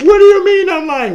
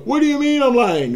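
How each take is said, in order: First: It is said in a high voice. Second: It is said in a normal voice.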